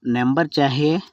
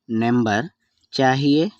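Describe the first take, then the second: First: Said in the usual way. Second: number, a clear pause, then rising చాహియే; word by word. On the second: Shown as a demonstration. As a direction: separate number and చాహియే for learners. Teacher repeats phrase word by word. (పదం పదంగా, మధ్యలో ఆగి)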